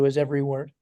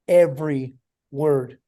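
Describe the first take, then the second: First: Said in the usual way. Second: "every word" slowly, each word set apart; emphatic repetition. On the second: Real, not acted. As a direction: weigh EVERY, pause, then land WORD. Repeats the phrase for emphasis.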